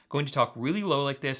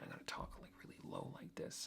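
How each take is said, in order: First: It is said in a normal speaking voice. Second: It is whispered very quietly and mumbled.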